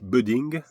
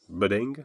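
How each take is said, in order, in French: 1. Il est prononcé avec un accent français. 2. Il est prononcé avec un accent anglais.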